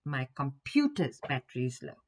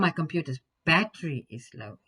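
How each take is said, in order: First: The word computer's is stressed. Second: The word battery is stressed. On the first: It is the computer, not the phone, whose battery is low. "instead of my cell phone's battery" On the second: The battery, not the screen, is the problem. "instead of the screen having something wrong with it"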